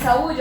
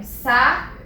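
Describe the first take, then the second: First: Said in the usual way. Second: "sa-u-de" in three slow pieces with long pauses; syllable by syllable. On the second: Shown as a demonstration. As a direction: break "sa-u-de" apart, each syllable standing alone. ("sa-u-de" sílaba por sílaba, com pausas longas) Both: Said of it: "Quando eu separo a sílaba de saúde".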